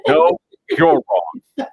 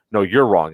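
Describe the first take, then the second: First: High, very slow, drawn out with a laugh; mocking retort. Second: Said in the usual way. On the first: Throwing the checkpoint guy's words back, high and drawn-out mockery. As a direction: sing it back at him, gloating.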